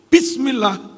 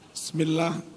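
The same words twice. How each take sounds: First: The opening 'b' sound is clearly pronounced. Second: The opening 'b' sound is weak and unclear. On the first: The speaker calls it right. "Yang seharusnya ba itu harus sorry" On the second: The speaker calls it wrong. "Tapi banyak imam"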